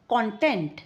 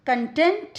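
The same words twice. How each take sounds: First: content as CON-tent, tune falling; first-syllable stress. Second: content as kun-TENT, tune rising; second-syllable stress. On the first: Teacher reads the word aloud, first syllable of content stressed. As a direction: give content a full "con" at the start. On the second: Teacher reads the word aloud, second syllable of content stressed. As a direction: reduce the first vowel of content, weight the end. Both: Shown as a demonstration. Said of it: "with the correct syllable stress".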